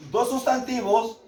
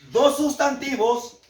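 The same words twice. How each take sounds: The two takes are said the same way.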